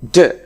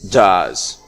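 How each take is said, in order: First: The word is said in a reduced form. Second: The word is said in a full form. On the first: "Does has a weak form which is d" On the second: "a strong form which is does"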